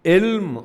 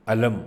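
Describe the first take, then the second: First: علم said as "ilm", short i first and no vowel after l; ilm, knowledge. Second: علم said as "alam", two short a vowels; alam, flag. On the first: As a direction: say علم as one syllable, "ilm". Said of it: "علم knowledge ہے". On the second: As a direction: say علم in two syllables, "a-lam". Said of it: "جھنڈا ہے". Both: Shown as a demonstration.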